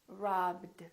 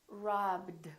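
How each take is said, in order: Both takes have the same delivery.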